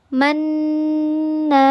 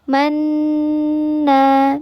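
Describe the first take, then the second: No difference in how they are said.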